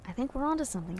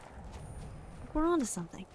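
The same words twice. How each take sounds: First: Said in the usual way. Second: Higher and softer, a playful put-on voice; high soft mock. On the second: Telling chat they're onto something, high soft mock. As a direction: say it again up high and hushed, teasing. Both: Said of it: "repeats line to chat".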